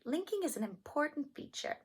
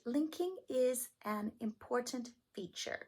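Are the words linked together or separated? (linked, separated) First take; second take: linked; separated. First: The words are linked smoothly together. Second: The words are separated with small breaks. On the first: The speaker calls it right. "You want to connect it and link it" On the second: The speaker calls it wrong. "You would not want to separate"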